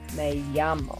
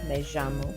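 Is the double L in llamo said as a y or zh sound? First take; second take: y sound; zh sound. First: The double L is said like a y sound. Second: The double L is said like a zh sound. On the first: "The double L sounds like a Y" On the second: "regionally have a je sound, kind of like that French J"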